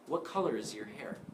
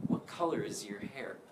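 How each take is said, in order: First: The word 'your' is weak and reduced. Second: The word 'your' is weak and reduced.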